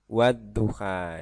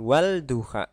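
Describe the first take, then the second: First: A doubled d sound is heard before duha. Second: An l sound is heard before duha. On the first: The speaker calls it right. "Yang benar wad duha" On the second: The speaker calls it wrong. "bukan wal duha"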